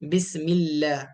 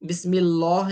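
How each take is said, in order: First: The L is light, with unrounded lips. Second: The L is heavy, with rounded lips. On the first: The speaker calls it right. "लाम को बारीक पढ़ेंगे" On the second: The speaker calls it wrong. "नहीं कहा जाता, गलत हो जाएगा वो"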